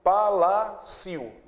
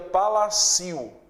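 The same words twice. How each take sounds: No difference in how they are said.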